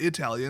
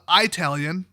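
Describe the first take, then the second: First: It is said with the standard, non-Wisconsin pronunciation. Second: It is said with a Wisconsin regional pronunciation. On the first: The speaker calls it wrong. "It's not Italian, You guys are the ones saying it wrong" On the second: The speaker calls it right. "as we say in Wisconsin"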